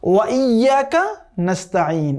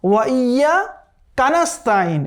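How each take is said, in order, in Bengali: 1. 'iyyaka'-র ভেতরে কোনো বিরতি না দিয়ে বাক্যাংশটি সাবলীলভাবে পড়া হয়। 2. 'wa iyya'-র পরে বিরতি বাক্যাংশটিকে ভাঙে। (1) "পড়তে হবে ওয়া ইয়াকা নাস্তাঈন এভাবে" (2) "এই ওয়া ইয়া পর্যন্ত সে একটা পজ দেয়"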